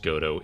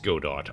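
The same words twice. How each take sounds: First: It is said the French way, as pronounced. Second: It is said as spelled, read phonetically. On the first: This is how others say it should be pronounced. "I don't care if it's pronounced Godot" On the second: The speaker deliberately reads it as written. "it's Godot. I I pronounce things phonetically"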